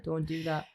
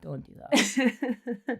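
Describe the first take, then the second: First: Said in the usual way. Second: Very slow, high, pleading; drawn-out protest. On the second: Pretend. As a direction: stretch it out in mock pain. Protesting friend's joke.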